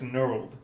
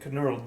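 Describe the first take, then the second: First: The word starts with an n sound, no k. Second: The word starts with a pronounced k sound. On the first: The speaker calls it right. "You don't say the K" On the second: The speaker calls it wrong. "I'm gonna keep calling it knurled though"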